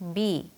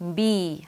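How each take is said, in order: First: The letter is said short and clipped. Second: The letter is drawn out a little longer. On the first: The speaker calls it wrong. "이렇게 짧게 발음하지 말고" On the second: The speaker calls it right. "약간 길게 빼면서"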